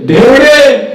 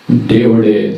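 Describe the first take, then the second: First: దేవుడే shouted high and loud; preacher's climactic shout; shouted climax. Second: Said in the usual way. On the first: Shown as a demonstration. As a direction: hit దేవుడే as a triumphant cry. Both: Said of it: "rising repetition".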